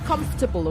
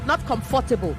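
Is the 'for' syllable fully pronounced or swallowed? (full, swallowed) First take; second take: swallowed; full. First: The middle 'for' syllable is swallowed. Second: The middle 'for' syllable is fully pronounced. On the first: The speaker calls it right. "you swallow the for" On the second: The speaker calls it wrong.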